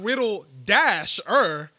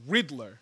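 First: The name is said with three syllables. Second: The name is said with two syllables. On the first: The speaker calls it wrong. "Like it's not Riddle-er" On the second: The speaker calls it right. "There's an R at the end. It's Riddler"

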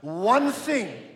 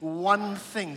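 First: It is said more loudly. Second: It is said at normal volume.

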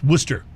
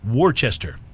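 First: The name is cut short to two syllables. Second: Every spelled syllable of the name is pronounced. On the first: The speaker calls it right. "but it's pronounced Worcester" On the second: The speaker calls it wrong. "that's spelled Worcester"

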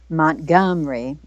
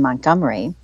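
First: The word is said with three syllables. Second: The word is said with four syllables. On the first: This is how locals in Alabama say the name. "It's actually three syllables the way they pronounce it in the state of Alabama" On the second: This is how northerners say the name. "We add one up here in the north"

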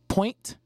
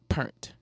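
First: The vowel is said as a standard 'oy'. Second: The vowel is said like 'er', New Orleans style. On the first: The speaker calls it right. "point, not pernt" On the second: The speaker calls it wrong. "not pernt"

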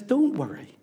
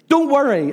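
First: The words sound gentle, like a comfort. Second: The words sound stern, like a command. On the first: It is reassurance for people going through a hard time. "Unless he's trying to bring reassurance and help and comfort" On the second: It is an order that makes the listener worry more. "Unless he doesn't say it like that, of course"

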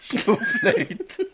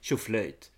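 First: The word is said in a sincere tone. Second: The word is said in an ironic tone. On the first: The speaker truly means the cheer. "Nu var jag inte ironisk, utan nu menar jag verkligen tjoflöjt" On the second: The speaker does not really mean the cheer. "Var du ironisk när du sa tjoflöjt? Ja, lite"

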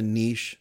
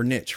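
First: The word rhymes with 'quiche', a long vowel. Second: The word rhymes with 'riches', a short vowel.

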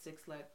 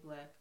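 First: The name is said as two words, six lack. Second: The name is said as one word, black. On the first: "It's Six Lack"

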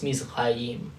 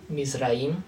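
First: The R is made at the back of the throat. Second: The R is a quick tongue tap. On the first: This is the modern pronunciation. "they do the uvular one now. So it's Mizraim" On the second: This is the ancient pronunciation. "the R was pronounced like a Spanish R. It's called a tap"

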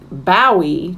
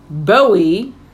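First: The first syllable rhymes with how. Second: The first syllable rhymes with doe. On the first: The speaker calls it wrong. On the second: The speaker calls it right.

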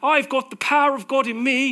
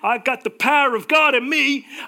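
First: It is spoken in a British accent. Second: It is spoken in an American accent. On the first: "Let's do a very British accent" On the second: "I don't know why I do an American accent"

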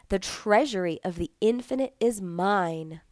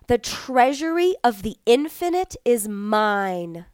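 First: It is spoken in a normal voice. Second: It is spoken in a loud voice. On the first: "Repeat in a regular voice" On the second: "repeat it the first time in a loud voice"

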